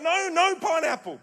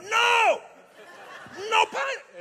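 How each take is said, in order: First: Loud, high retold protest without accent; accent dropped. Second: Put-on high, loud Italian-accented outburst; mock Italian accent. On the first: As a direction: imitate an outraged refusal in your own accent. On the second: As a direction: protest hotly, hamming up an Italian accent. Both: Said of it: "I'll forget the accent".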